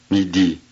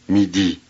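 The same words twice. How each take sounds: The two takes are said the same way.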